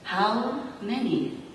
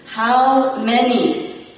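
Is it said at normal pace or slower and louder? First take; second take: normal pace; slower, louder. First: It is said at a normal pace and volume. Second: It is said more slowly and loudly.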